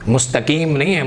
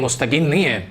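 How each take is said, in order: No difference in how they are said.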